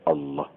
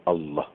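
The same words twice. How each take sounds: The two takes are said the same way.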